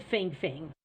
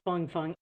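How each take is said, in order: First: Feng Feng said as written, like "fing fing"; said as spelled. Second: Feng Feng said "fung fung"; guessed Chinese pronunciation. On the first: Host showing the spy's name as spelled, Feng Feng pronounced "fing fing". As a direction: say Feng Feng with a short front vowel, "fing". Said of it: "It's spelled Feng Feng". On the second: Host guessing at the spy's name, Feng Feng pronounced "fung fung". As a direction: say Feng Feng to rhyme with "lung". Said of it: "I guess it's pronounced Feng Feng". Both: Shown as a demonstration.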